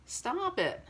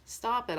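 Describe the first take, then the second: First: Sharp stop it. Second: Said in the usual way. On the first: Real, not acted. Vlogger begging viewers to quit hating, sharp high plea. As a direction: cut them off with a pleading stop it.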